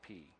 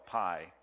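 First: The letter name rhymes with 'see'. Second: The letter name rhymes with 'eye'. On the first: This is the scholarly classical pronunciation. The speaker calls it right. "the proper way to say pi is P" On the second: This is the common everyday pronunciation. The speaker calls it wrong. "I know you call it pi"

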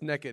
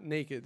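First: The first vowel sounds like the one in neck. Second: The first vowel sounds like the one in nay. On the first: "I say naked because I kind of always thought like you're naked from your neck down" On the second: "not naked"

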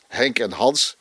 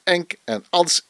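First: The names begin with an h sound. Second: The names begin without an h sound. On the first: "Mijn broers Henk en Hans" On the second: "werden meestal aangesproken als Enk en Ans"

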